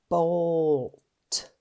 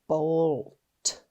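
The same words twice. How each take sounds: No difference in how they are said.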